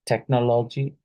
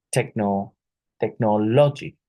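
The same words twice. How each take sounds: First: Said in the usual way. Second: "technology" broken after techno, with the third syllable hit; "technology" with a misplaced punch on the third syllable; wrong syllable stress. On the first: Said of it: "incorrectly stressed in the pronunciation". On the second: Shown as a demonstration. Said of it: "which syllable is incorrectly stressed".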